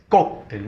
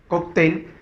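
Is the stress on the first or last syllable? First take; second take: first; last. First: The stress is on the first syllable. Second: The stress is on the last syllable. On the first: "y la otra palabra es cóctel" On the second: "es una palabra aguda"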